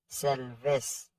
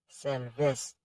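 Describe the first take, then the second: No difference in how they are said.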